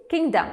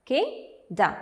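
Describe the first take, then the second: First: Said in the usual way. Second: "Kingdom" split into two separate beats; syllable by syllable. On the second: Shown as a demonstration. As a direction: break "Kingdom" into king, pause, dom. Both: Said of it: "So there are two syllables".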